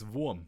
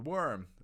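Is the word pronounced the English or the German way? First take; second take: German; English. First: It is pronounced the German way, Wurm. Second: It is pronounced like the English word worm. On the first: "it's actually it's Wurm" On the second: "The worm"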